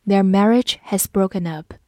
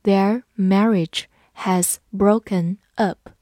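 First: Said in the usual way. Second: Slow, careful read-along. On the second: Shown as a demonstration. Teacher reads slowly so students repeat. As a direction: say each word slowly for the class. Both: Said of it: "跟着我慢读一遍".

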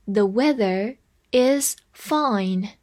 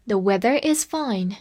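First: Slow, careful reading of the sentence. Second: Said in the usual way. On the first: Shown as a demonstration. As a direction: spell out each word for learners. (慢读例句) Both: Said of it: "再来一遍".

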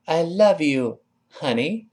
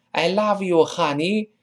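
First: I love you, honey with a clear v and rising honey; tender model of I love you, honey; nice I love you honey. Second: I love you, honey with an exaggerated ah; hammed-up I love you, honey; overdone I love you honey. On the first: Teacher shows the pleasant I love you, honey. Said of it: "你看多好听". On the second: Teacher mocks the too-open I love you, honey. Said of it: "这有点太哈了". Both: Shown as a demonstration.

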